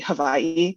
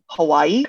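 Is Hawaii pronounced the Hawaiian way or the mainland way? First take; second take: Hawaiian; mainland. First: Hawaii is pronounced the native Hawaiian way. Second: Hawaii is pronounced the mainland American way. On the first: It is the place's own pronunciation. The speaker calls it right. "I know it's supposed to be Hawaii" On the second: It is said so mainlanders understand. The speaker calls it wrong. "I know I'm saying it wrong"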